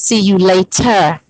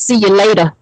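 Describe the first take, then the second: First: Each word is pronounced fully and carefully. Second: The words are slurred together in a lazy way. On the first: The speaker calls it right. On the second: The speaker calls it wrong.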